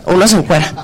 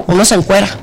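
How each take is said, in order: Both takes have the same delivery.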